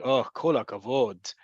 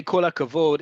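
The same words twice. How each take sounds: First: Sarcastic praise, falling on "kol hakavod". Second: Said in the usual way. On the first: Shown as a demonstration. Teacher shows how praise can sound, sarcastic. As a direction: say "Oh, kol hakavod" as mock congratulation. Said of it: "in a certain way".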